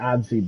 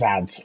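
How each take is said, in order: First: The word ends with an extra 'ee' vowel. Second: The word ends on a 'z' sound. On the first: The speaker calls it wrong. "I pronounce it adzy, but I could be wrong" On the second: The speaker calls it right. "it is ads"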